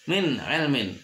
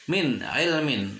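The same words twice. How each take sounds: Both takes have the same delivery.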